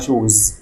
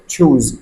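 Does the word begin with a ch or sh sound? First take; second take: sh; ch. First: The word begins with a soft sh sound. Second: The word begins with a sharp ch sound. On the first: It sounds like the word for shoes. The speaker calls it wrong. "بعض الطلبه بيقولوا على يختار يعني شوز" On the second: It means to pick. The speaker calls it right. "نطقها تشوز"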